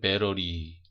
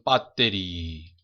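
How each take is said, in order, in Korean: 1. 미국 억양으로 발음돼요. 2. 일본 억양으로 발음돼요. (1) "미국 사람들은" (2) "일본 사람들은"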